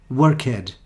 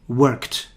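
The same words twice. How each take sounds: First: The ending is said as an extra syllable. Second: The ending adds no extra syllable. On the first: The speaker calls it wrong. "they make the mistake. They say worked, like started" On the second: The speaker calls it right. "Think more about the end of the word"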